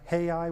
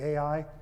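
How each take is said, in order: First: The name starts with an audible H sound. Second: The name starts directly with a vowel sound. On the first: This is the Hebrew pronunciation. "in Hebrew, is pronounced Hai with, a, with an H" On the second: This is the usual English pronunciation. "our English uh, pronunciation is usually Ai"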